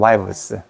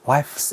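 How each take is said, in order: First: It has a voiced v before the s. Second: It has a voiceless f before the s. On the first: The speaker calls it right. "이렇게 하면 발음하기가 쉬워. 그냥 wives" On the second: The speaker calls it wrong. "wives 이라면 발음하기가 무지 힘들어"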